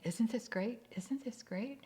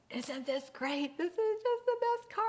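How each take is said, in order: First: Higher-pitched, repeated mock delight; acted eager husband, pitched up; insistent enthusiasm. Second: High, loud, over-the-top delight; hammed-up thrilled husband; gushing excitement. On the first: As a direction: keep trying to convince your wife it's great. Husband keeps repeating it while driving. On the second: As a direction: gush like a man in his dream car. Husband gushing over new car to wife.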